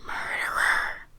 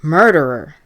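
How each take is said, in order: First: Slow, drawn-out ghostly whisper; louder whisper. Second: Loud, accusing scream. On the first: Second ghostly voice accusing the old man, slow stage whisper. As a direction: stretch the whispered accusation out slowly. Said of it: "another voice whispered louder". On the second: Ghostly voice turns on the old man, screamed accusation. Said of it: "the voice screamed". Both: A narrator's reading.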